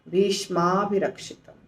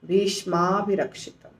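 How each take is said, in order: First: The two words are joined into one word. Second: The two words are joined into one word.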